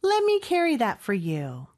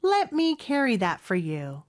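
First: "Let me" as "lemme", "for" as "fr"; connected fast-speech form. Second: "Let me" and "for" in their full forms; careful repeat. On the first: Teacher repeating with reductions, linked "lemme" and "fr". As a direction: link it up, T dropped and "for" vowelless. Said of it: "빨리 발음할 때는 확실히 조금씩 생략". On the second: Teacher repeating the practice sentence, slow full pronunciation. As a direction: slowly repeat "Let me carry that for you", words whole. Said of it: "같이 이 문장 연습해 볼까요". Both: Shown as a demonstration.

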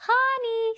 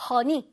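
First: "honey" said smoothly, first vowel open like "huh"; smooth, unstiff pronunciation. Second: "honey" said stiffly, with an o-like first vowel; stiff pronunciation. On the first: Teacher models the right way for students, smooth "honey". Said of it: "딱딱하게 honey 이러면 안 되고". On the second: Teacher shows students what to avoid, stiff "honey". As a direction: say "honey" hard and stiff, as a wrong example. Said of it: "이걸 딱딱하게 honey 이러면 안 되고". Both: Shown as a demonstration.

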